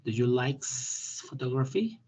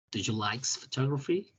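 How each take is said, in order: First: Each word spelled out slowly; slow it down so they hear every sound in "photography"; deliberate teacher model, drawn out; slow careful pronunciation. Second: Said in the usual way. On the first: Shown as a demonstration. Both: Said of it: "escuchen mi pronunciación".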